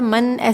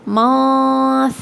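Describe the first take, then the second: First: The n is pronounced fully and clearly. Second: The n is hidden in a nasal hum. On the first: The speaker calls it wrong. "मन ऐसे नहीं पढ़ेंगे" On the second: The speaker calls it right. "इख्फा करेंगे, गुन्ने को छुपाएंगे"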